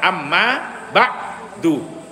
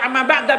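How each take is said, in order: First: The last word ends with an 'u' vowel. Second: The last word ends with an 'a' vowel. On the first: The speaker calls it right. "yang benar bacanya apa? Amma ba'du" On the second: The speaker calls it wrong. "Kalau dibaca amma ba'da bagaimana? Harus ada haknya"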